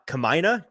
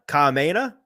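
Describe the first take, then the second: First: "Kamaina" tried out haltingly, starting over after "Kama-"; tentative pronunciation. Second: "Kameina" higher, with "mei" as in "may"; second pronunciation attempt. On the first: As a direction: sound out "Kamaina" unsure of it. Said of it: "how would I say that?". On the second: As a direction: try "Kameina" with a questioning lift. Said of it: "the second one sounded closer". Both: Shown as a demonstration.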